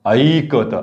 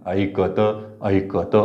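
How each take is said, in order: First: ऐकत with the ऐ stretched and the क not lengthened; wrong reading. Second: ऐकत with the क drawn long and the त clipped; correct reading. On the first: Teacher showing the class how ऐकत should not be said. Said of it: "असं नाही म्हणू आपण". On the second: Teacher showing the class the right ऐकत with a long क. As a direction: lengthen क in ऐकत, clip the त. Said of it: "क लांबतंय". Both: Shown as a demonstration.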